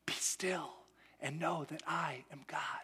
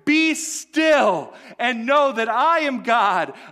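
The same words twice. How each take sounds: First: It is said softly and calmly. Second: It is said strongly, like a command. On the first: It is a comforting, calming reassurance. The speaker calls it wrong. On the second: It is a commanding order from a victor. The speaker calls it right.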